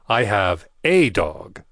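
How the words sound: The word 'a' is stressed.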